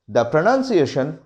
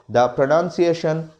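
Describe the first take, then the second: The two takes are said the same way.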